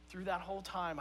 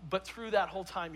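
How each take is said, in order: First: "through that whole time" said again much softer, with a pause before it; softer repeat for emphasis. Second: Said in the usual way. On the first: Shown as a demonstration. Pastor repeating "through that whole time" to his church, softly.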